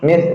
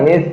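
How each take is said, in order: Both takes have the same delivery.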